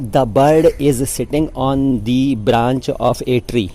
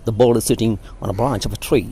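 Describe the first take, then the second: First: It is said in an Indian English accent. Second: It is said in an American English accent.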